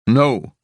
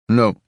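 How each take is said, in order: First: Forceful No, higher and louder; insist, harder; more forceful no. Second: Firm no, higher and louder; firm refusal. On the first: Boy insisting he won't cry, more forceful. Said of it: "more forcefully". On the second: Boy refusing to cry, firm. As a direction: shut the idea down. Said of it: "and then, more forcefully". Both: A narrator's reading.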